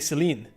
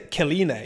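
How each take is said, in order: First: The name begins with a soft S sound. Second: The name begins with a hard K sound. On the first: The speaker calls it right. "You say Celine. That's a C, right?" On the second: The speaker calls it wrong. "You don't say Kalina"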